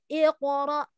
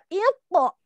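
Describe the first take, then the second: First: The q is released with a small bounce. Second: The q lacks the small bounce. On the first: The speaker calls it right. "tapi iqra" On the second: The speaker calls it wrong. "Jadi enggak iqo, enggak gitu"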